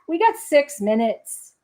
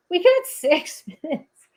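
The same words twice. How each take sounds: First: Said in the usual way. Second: Repeated with a real laugh breaking in; laughing through it. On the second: Real, not acted. Telling viewers the time left, laughing.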